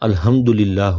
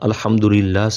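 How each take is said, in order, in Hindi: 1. "h" एक सादी, साँस वाली आवाज़ है। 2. "h" एक तंग गले की आवाज़ है।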